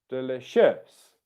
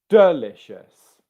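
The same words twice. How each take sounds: First: The stress is on the third syllable. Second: The stress is on the first syllable. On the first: "And the third one would be delicious" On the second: "I'll start by stressing the first one"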